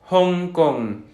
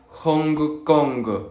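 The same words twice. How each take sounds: First: The syllables end in a nasal ng without g. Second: The syllables end with an audible hard g. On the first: The speaker calls it right. "Como por ejemplo Hong Kong" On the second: The speaker calls it wrong. "tendemos a pronunciar la G"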